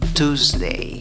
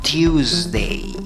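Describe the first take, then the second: First: The word has a plain long u, no y-glide. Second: The word has a y-glide before the long u. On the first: "puedes pronunciar esta palabra con cinco sonidos y decir Tuesday. Tuesday, con una U larga" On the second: "O también puedes poner una Y o el sonido de una I antes de la U. Entonces serían seis sonidos"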